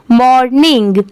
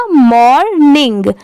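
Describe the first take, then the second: First: Said in the usual way. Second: मॉर्निंग slowly split as मॉर-निंग; syllable by syllable. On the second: Shown as a demonstration. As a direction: sound out मॉर्निंग in two drawn-out parts. (मॉर्निंग को धीरे, दो हिस्सों में बोलें) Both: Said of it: "दोनों मिला देंगे तो क्या हो जाएगा".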